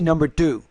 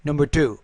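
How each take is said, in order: No difference in how they are said.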